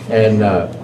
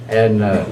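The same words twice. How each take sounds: Both takes have the same delivery.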